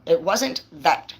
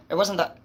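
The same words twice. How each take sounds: First: "wasn't" slowed and leaned on, falling at the end; stress on wasn't. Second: Said in the usual way. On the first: Shown as a demonstration. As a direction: drag out "wasn't" slowly for emphasis.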